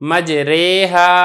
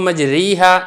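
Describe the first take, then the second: First: The vowel after r is a middle 'ay' sound. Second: The vowel after r is a long 'ee'. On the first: The speaker calls it right. "अलिफ को या की तरफ माइल करके आपने पढ़ना है" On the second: The speaker calls it wrong. "आपने इसको मजरीहा ये भी नहीं पढ़ना"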